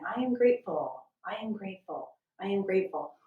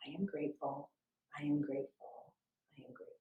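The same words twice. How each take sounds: First: Said in the usual way. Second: Soft, fading to a near whisper; quiet inner repetition fading out. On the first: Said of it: "could be as simple as saying". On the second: Shown as a demonstration. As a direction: say it softly, fading away each time. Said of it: "So quietly in your mind".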